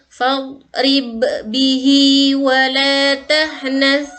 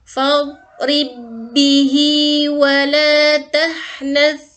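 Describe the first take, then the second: First: The first b is bounced with an echo. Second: The two b sounds merge into one doubled b. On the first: The speaker calls it wrong. "bacaan yang kurang benar" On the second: The speaker calls it right. "tidak perlu dipantulkan lagi ya karena qalqalahnya hilang. Jadi yang betul"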